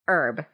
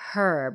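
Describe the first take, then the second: First: The word begins with a vowel, no h sound. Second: The word begins with an audible h sound. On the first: This is the French and American way of saying it. "the French pronounce it herb with a silent H" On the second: This is the British way of saying it. "the correct term is herb"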